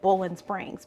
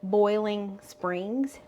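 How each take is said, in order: First: The first word is said with an 'oh' sound. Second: The first word is said with a full 'oi' sound. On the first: "I say Bowling Springs because that's just how we talk around here" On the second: "He loves that I don't say Boiling Springs"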